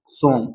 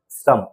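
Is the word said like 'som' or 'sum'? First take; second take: som; sum. First: The vowel is a rounded 'o' sound. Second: The vowel is a short 'uh' sound. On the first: The speaker calls it wrong. "भाई मेरे ये गलत है" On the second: The speaker calls it right. "आप इसे पढ़ना सम"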